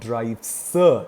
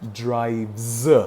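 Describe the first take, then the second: First: The word ends with a hissing s sound. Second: The word ends with a buzzing z sound. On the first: The speaker calls it wrong. "not drive sir, sir sound" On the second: The speaker calls it right. "The z sound"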